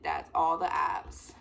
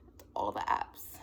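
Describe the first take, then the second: First: Said in the usual way. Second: Low, slow whisper; hushed, voiceless disbelief; whispered repeat. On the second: Acted. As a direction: whisper it slowly, almost to yourself. Same words repeated in dismay.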